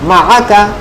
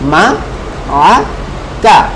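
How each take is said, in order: First: The syllables are joined together and said quickly. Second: The syllables are said separately with breaks. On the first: "তারপরে দ্রুত বলবো" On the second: "আগে ভেঙে ভেঙে বলবো"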